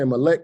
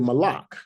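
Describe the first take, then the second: First: Both vowels are e sounds. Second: Both vowels are a sounds. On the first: The reading follows the modern vowel points. "if we use the modern vowel points" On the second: The reading ignores the modern vowel points. "Hebrews that don't use the vowel points"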